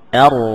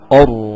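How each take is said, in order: First: The vowel sounds light and thin at the start. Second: The vowel sounds heavy and dark from the start. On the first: The speaker calls it right. "Ar-Rahman tapi ar" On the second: The speaker calls it wrong. "jangan dari awal sudah tebal ar"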